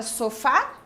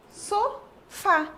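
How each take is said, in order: First: Said in the usual way. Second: "Sofá" in two higher beats with a gap: so, fá; "Sofá" broken apart as so, fá; split into syllables. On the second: Shown as a demonstration. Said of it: "Quantas sílabas?".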